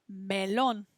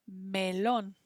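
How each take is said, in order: Both takes have the same delivery.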